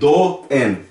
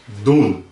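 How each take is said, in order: First: The vowel letters are split into two sounds. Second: The vowel is one single oo sound. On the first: The speaker calls it wrong. "eu não vou ler do, en" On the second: The speaker calls it right. "ou pronuncia como dun"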